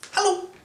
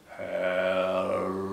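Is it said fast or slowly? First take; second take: fast; slowly. First: It is said very fast. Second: It is said very slowly.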